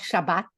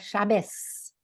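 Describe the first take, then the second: First: The word ends with a t sound. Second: The word ends with an s sound. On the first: "Eles não vão falar Shabbat" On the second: "eles vão falar Shabbos. O Taf vira Samer"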